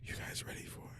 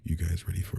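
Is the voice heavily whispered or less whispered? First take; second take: heavily whispered; less whispered. First: The voice is a heavy, airy whisper. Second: The voice is less whispered and more voiced. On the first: The speaker calls it wrong. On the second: The speaker calls it right.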